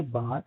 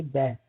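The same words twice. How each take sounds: First: बाथ with a long open a, British style; बाथ like British "bahth"; British bath. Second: बैथ with a flat a as in cat; बैथ rhyming with cat; American bath. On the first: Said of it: "British कहेंगे बाथ". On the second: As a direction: say बैथ the American way, short front a. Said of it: "American कहेंगे बैथ". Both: Shown as a demonstration.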